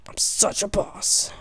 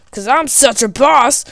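First: A smug breathy aside, no voice; whispered boast. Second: Said in the usual way. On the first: Acted. Gamer whispering a boast to himself during the fight. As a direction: whisper the brag to yourself.

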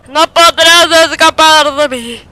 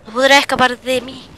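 First: Slow, loud, higher menacing taunt; mock villain threat to fleeing enemy. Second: Said in the usual way. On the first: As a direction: ham it up like a movie villain. No podrás escapar de mí.

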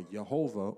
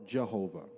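First: "Jehovah" said with an opening Y sound, Yehovah; Y-sound variant. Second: "Jehovah" said with an opening English J sound; J-sound variant. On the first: Preacher listing spoken forms of God's name, "Jehovah" with a Y sound. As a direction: start "Jehovah" with a Y instead of a J. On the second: Preacher listing spoken forms of God's name, "Jehovah" with a J sound. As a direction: start "Jehovah" with a J as in judge. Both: Shown as a demonstration. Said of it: "Nobody knows the actual pronunciation".

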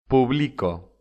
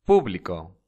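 First: "Publico" with the stress on the middle syllable, pu-BLI-co; llana stress. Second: "Público" with the stress on the first syllable, PÚ-bli-co; esdrújula stress. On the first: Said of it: "Son las llamadas llanas". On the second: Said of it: "se llaman palabras esdrújulas". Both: Shown as a demonstration.

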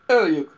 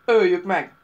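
First: Much louder growling echo; loud snarling echo; growled in chorus. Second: Much louder barking cry; loud brutish bark. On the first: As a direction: growl it back together. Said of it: "morrantottak társai". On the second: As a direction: bark the kill order. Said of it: "vakkantott az egyik szörnykatona". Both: A narrator's reading.

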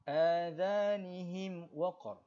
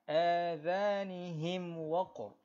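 First: "Adhanihim" repeated very slowly with a crisp, distinct m; clear mim mati. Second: "Adhanihim" drawn out very slowly, the m of him said clearly; clear mim mati. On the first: Teacher repeating the izhar example slowly for students. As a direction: land plainly on the m of him. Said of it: "baca him dekat sini dengan jelas". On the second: Teacher showing izhar syafawi on Adhanihim, slow and clear. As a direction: close lips firmly on the m before waqr. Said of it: "jadi bacaan dia macam mana". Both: Shown as a demonstration.

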